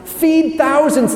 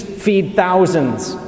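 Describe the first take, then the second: First: High, drawn-out wonder; acted amazement. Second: Said in the usual way. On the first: Crowd who saw Jesus feed thousands, high acted amazement. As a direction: marvel at it like an astonished onlooker.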